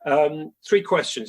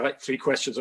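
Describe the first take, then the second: First: "three questions" said slowly, each word leaned on and louder; slow, firm "three questions", hitting "three"; stress on three. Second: Said in the usual way. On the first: Retold or imitated. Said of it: "he said". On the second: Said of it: "And he said".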